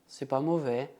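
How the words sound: It is said grimacing, sounding displeased. The food was not liked. "faz uma careta e fala, hum"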